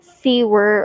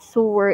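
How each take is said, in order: First: The first syllable does not sound like 'so'. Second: The first syllable sounds like 'so'. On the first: The speaker calls it wrong. "it's not sewer" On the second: The speaker calls it right. "as in S O"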